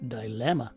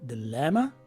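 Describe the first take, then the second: First: The first vowel is a long I. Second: The first vowel is a short I. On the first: This is the UK pronunciation. "in the U K, they use a long letter I" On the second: This is the North American pronunciation. "in North America, we use a short letter I in the first syllable"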